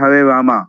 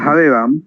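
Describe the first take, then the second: First: The name ends with a drawn-out final vowel. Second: The name ends without an added long vowel. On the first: "उसको वो दिल खींच के" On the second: "हम बोलते हैं हे राम या हरे राम"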